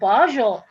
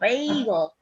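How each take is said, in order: First: The middle consonant is a soft j sound. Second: The middle consonant is a hard g sound. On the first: The speaker calls it wrong. "I corrected her pronunciation" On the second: The speaker calls it right. "oh, it's pronounced bagel"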